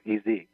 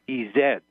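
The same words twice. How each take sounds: First: The second letter is said as zee. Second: The second letter is said as zed. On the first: It sounds like the word easy. "instead of EZ" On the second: This is how it is said in Europe. "it doesn't work in Europe because it's EZ"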